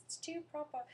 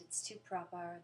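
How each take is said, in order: First: Put-on high, loud, over-proper British accent; mock British accent. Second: Mildly proper British accent; British accent attempt. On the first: Mocking Americans trying British accents, high exaggerated British. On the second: Shown as a demonstration. American answering a request for accents, modest British attempt. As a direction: try a British accent, a bit louder. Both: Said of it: "Americans trying to do British accents".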